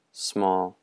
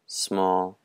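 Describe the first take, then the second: No difference in how they are said.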